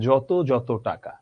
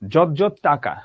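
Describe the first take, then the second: First: Each 'যত' ends with an o vowel. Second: Each 'যত' ends without an o vowel. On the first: The speaker calls it right. "তুমি বলবা যত যত টাকা" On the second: The speaker calls it wrong. "তুমি তো এটা বলবা না"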